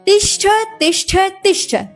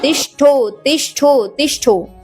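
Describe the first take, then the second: First: Each word ends with a short 'a' sound. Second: Each word ends with an 'o' sound. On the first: The speaker calls it right. "तिष्ठ तिष्ठ तिष्ठ शब्द यह है" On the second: The speaker calls it wrong. "पहली बात तो गलती आपने यहां पर ही कर दी।"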